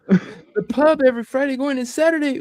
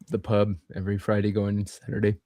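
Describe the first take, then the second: First: It is said in a lively, enthusiastic tone. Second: It is said in a flat, unenthusiastic tone.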